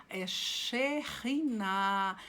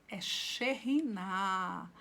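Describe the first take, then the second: No difference in how they are said.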